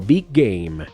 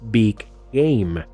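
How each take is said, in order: First: The two g sounds merge into one linked sound. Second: The two words are said separately, each g released. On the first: "los sonidos G se fusionan y se pronuncia como" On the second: "Si separas cada palabra, sonaría como"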